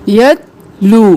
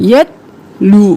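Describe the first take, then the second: The two takes are said the same way.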